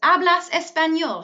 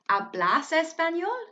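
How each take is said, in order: First: The voice falls at the end. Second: The voice rises at the end.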